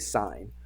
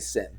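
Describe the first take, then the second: First: The vowel is long, rhyming with 'pine'. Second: The vowel is short, rhyming with 'pin'. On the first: The speaker calls it right. "We say sine" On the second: The speaker calls it wrong. "We never say sin"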